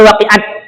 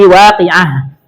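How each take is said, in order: First: The word ends with a t sound. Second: The word ends with an h sound. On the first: The speaker calls it wrong. "Tidak boleh waqi'at" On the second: The speaker calls it right. "tapi waqi'ah"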